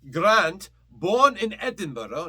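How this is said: It is read in a Scottish accent.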